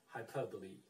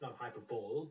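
First: The final e is pronounced. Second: The final e is silent. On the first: The speaker calls it right. "with E, not hyperbole, but hyperbole" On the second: The speaker calls it wrong.

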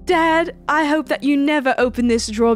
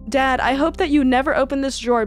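First: It is read in a put-on British accent. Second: It is read in the speaker's ordinary accent.

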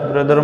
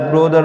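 First: The first vowel sounds like 'uh'. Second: The first vowel sounds like 'o'. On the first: The speaker calls it right. "ब्रदर ब्रदर ब्रदर म्हणजे भाऊ" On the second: The speaker calls it wrong. "ब्रोदर नाही म्हणायचं"

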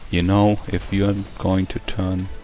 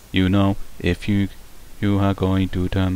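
First: The voice is the speaker's plain natural voice. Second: The voice imitates a robotic synthesized voice.

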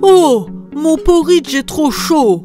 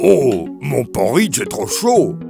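First: A softer, gentle mother bear voice. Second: A deep, gruff father bear voice.

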